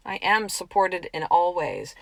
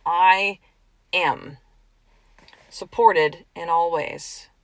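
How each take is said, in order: First: Said in the usual way. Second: Each word set apart with pauses, I, am, supported; slow declaration. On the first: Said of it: "Write that down". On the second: Shown as a demonstration. Coach to listener, declaring the affirmation slowly, word by word. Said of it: "This is the way it is".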